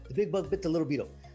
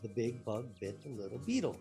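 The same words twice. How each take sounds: First: It is said super fast. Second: It is said at a normal speed.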